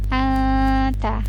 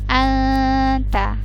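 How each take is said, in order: The two takes are said the same way.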